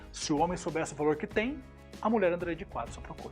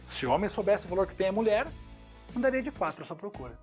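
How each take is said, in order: First: The pause comes right after the word 'tem'. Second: The pause comes right after the word 'mulher'. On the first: The man is the one with great value. "fazendo a entonação dos meninos agora" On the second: The woman is the one with great value. "Olha como mudou minha entonação e mudou minha intenção"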